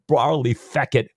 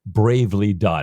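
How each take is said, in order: First: Scottish accent attempt, louder. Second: Said in the usual way. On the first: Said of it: "I wish I could do a Scottish accent".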